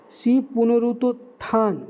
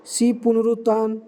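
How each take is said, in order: First: पुनरुत्थान slowed, every syllable pu-nu-rut-thaan apart; slow careful spelling-out. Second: Said in the usual way. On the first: Shown as a demonstration. Careful repeat of the option. (धीरे, पुनरुत्थान का हर अक्षर अलग-अलग)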